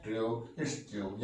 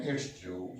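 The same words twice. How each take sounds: First: Slow demo. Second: Said in the usual way. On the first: Shown as a demonstration. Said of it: "यानी कि पूरा बोलते हैं". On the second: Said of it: "तो बोलते हैं".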